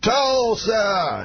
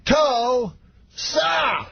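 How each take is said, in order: First: High, drawn-out stage call; Bill Cosby. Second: Very high, hugely stretched syllables with a gap; Bill Cosby, slower. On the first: Cosby greets a stadium crowd, high imitated call. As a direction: call it out high in one stretched word. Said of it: "walks out, and he goes". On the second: Cosby works up the screaming crowd, slow high impression. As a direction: draw each syllable out high and separately. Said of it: "every time slower". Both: Retold or imitated.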